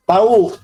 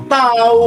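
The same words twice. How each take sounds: First: Short, level "Tahu" as a plain answer; knowing answer tune. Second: "tahu" lifted and drawn out, meaning no idea; don't-know tune. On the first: Teacher models a student's answer, "Tahu" said as knowing. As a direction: say "Tahu" simply, meaning you know. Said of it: "Coba, gini kamu". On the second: Teacher imitates student who doesn't know, dismissive tune on "tahu". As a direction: say "tahu" like a shrugged-off "who knows". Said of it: "kalau kamu jawabnya gini". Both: Shown as a demonstration.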